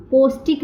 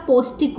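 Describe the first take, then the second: First: "पौष्टिक" with a rising, questioning tune as the incorrect version; wrong form. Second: "पौष्टिक" said with a settled falling tune as the right word; correct form. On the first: Teacher shows students the incorrect spelling, questioning rise. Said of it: "पौष्टिक नहीं होता". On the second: Teacher gives students the correct spelling, firm fall. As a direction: give the correct "पौष्टिक" firmly. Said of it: "पौष्टिक होता है". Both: Shown as a demonstration.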